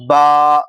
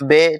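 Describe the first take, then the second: First: It is said with an Arabic 'ah' vowel. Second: It is said with an Urdu 'ay' vowel. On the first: This is the Arabic way of naming the letter. The speaker calls it right. "अरबी तलफ़्फ़ुज़ और लहज़े के साथ" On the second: This is the Urdu way of naming the letter. The speaker calls it wrong. "ये उर्दू है"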